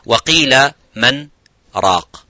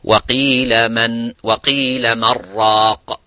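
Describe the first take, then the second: First: A brief pause separates man from raq. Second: Man runs straight into raq without pausing. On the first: The speaker calls it right. "which has also a pause" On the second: The speaker calls it wrong. "you wouldn't say"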